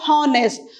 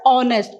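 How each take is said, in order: First: The word begins with an h sound. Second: The word begins with a vowel sound. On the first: The speaker calls it wrong. "we don't say it as" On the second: The speaker calls it right. "We pronounce it as"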